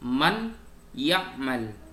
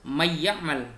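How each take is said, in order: First: The n is pronounced clearly before the y. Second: The n merges into the y with nasalization. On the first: The speaker calls it right. "dibaca idhar" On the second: The speaker calls it wrong. "tidak dibaca may ya'mal"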